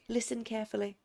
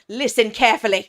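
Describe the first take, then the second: First: The phrase is said in a calm, even way. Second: The phrase is said loudly and forcefully. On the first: The speaker calls it wrong. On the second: The speaker calls it right.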